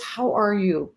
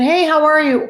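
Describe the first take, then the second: First: Softer, sincere question; genuinely caring. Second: Higher, louder breezy hello; casual generic greeting. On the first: Asking someone you really wanna know about, softly sincere. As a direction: ask softly, truly wanting the answer. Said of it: "I really genuinely wanna know". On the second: Greeting someone as a generic introduction, casual and breezy. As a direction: toss it off brightly as a passing greeting. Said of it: "There's a difference between". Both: Shown as a demonstration.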